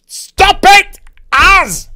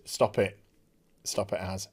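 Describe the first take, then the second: First: High, very loud real yell; shouted scolding. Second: Low, soft real aside; quiet scolding. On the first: Speaker interrupted mid-review by Az, shouted scolding. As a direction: snap out a sharp, loud telling-off. Scolding Az after quiet aside. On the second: Speaker breaking off to tell Az to stop, quiet scolding. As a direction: drop right down to tell off a nuisance. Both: Real, not acted.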